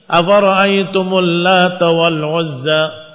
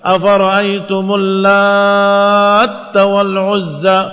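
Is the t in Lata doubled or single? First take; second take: single; doubled. First: The t in Lata is single and short. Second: The t is doubled after a lengthened vowel. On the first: The name is the feminine form of the word for god. "takfif di huruf ta" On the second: The word means one who mixes or kneads. "Yang kedua ditasydidkan di huruf ta"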